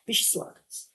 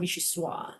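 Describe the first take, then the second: First: The word ends with a clear final 'z' sound. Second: The word ends without a final 'z' sound. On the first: The speaker calls it right. "You have to say the soise" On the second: The speaker calls it wrong. "It's not vichyssoise"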